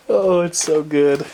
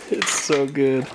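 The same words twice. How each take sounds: First: Slow, drawn-out delighted gush; awed. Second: Said in the usual way. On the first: Real, not acted. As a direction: savor every word in awe. Gushing over the lights.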